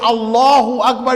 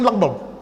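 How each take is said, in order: First: Every syllable of the phrase is said clearly. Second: The phrase is squashed into two syllables. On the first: The speaker calls it right. "Instead of saying" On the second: The speaker calls it wrong. "you're saying"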